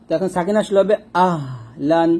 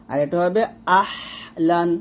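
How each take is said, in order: First: Said in the usual way. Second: "আহলান" with a pressed throaty h, slow. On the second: Shown as a demonstration. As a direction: squeeze the h in "আহলান". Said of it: "এই হাটা আমরা একটু চাপ দিব". ("আহলান" চাপ দিয়ে)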